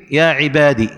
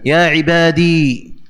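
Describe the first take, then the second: First: "عبادي" ending on a short i; short final vowel. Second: "عبادي" slowly drawn out to a long ee; long final ya. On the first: Teacher showing the form without ya, "عبادي" with short final i. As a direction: cut the last vowel of "عبادي" to a kasra. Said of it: "بدون ياء". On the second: Teacher showing the still ya, "عبادي" slow with long ee. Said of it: "إثبات الياء ساكنة". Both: Shown as a demonstration.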